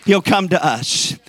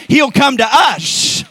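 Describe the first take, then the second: First: Said in the usual way. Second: High, loud, drawn-out proclamation; preaching shout. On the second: Real, not acted. Preacher promising the church God will come, exultant shout.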